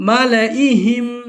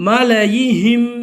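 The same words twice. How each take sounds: No difference in how they are said.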